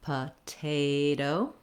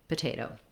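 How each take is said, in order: First: The word is said slowly. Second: The word is said quickly. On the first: "go slowly on each word" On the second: "work on speeding up"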